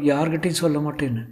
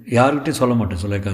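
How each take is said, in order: First: High, lowered-volume character voice; Sulekha. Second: Said in the usual way. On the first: Acted. Actress dictating a secrecy oath, high character voice. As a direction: keep it high and gentle.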